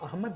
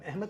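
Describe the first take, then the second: First: The vowel before h is a plain short a. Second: The vowel before h is shifted and wobbly. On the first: This is how it is said in Arabia. "अरब में तो अहमद है नाम" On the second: This is how it is said locally. "हम अहमद कहते हैं"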